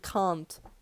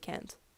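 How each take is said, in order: First: It is said with a British broad vowel. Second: It is said with an American flat vowel. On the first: "I was brainwashed into speaking British English. So I was saying can't" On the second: "most of the time I just say can't"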